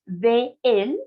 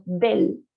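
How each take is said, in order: First: "de él" as two distinct words, both vowels held; "de él" with the two E sounds drawn out separately; separated words. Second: "del" run together as one syllable; "del" said slowly as one joined word; joined by liaison. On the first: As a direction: keep "de" and "él" apart. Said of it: "debería separarse de él". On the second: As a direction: merge de and él into a single "del". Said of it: "Juntamos del". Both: Shown as a demonstration.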